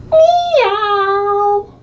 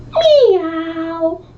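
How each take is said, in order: First: High, loud wailing meow; crying meow. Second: High kitten meow from a puppy; cat meow. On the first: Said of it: "and he went". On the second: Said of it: "And George went". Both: Acted.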